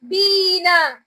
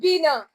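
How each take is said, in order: First: The first vowel is held long. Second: The first vowel is kept short. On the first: "we elongated it for like two seconds" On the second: "Without the elongation sign now, the sound will be different"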